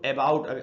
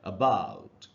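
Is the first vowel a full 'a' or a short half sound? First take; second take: full; half. First: The first vowel is a full, clear 'a'. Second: The first vowel is a short, half 'a'. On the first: The speaker calls it wrong. "कई बार हम लोग इसको अबाउट वगैरह ऐसे पढ़ लेते हैं" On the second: The speaker calls it right. "आधा अ का साउंड बन रहा है"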